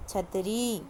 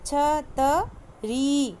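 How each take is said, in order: First: Said in the usual way. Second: छतरी very slow, final ee drawn out; teacher modelling छतरी; stretched long ee. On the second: Shown as a demonstration. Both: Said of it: "थोड़ा तेज़ खींचना पड़ता".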